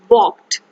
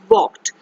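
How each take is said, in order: First: The L sound is left out of the word. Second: The L sound is left out of the word.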